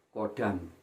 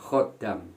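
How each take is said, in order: First: The word starts with a plain k sound. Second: The word starts with a raspy throat sound. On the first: The speaker calls it wrong. "Anda ganti dengan ko atau k" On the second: The speaker calls it right. "pelafalan khodam pakai kho"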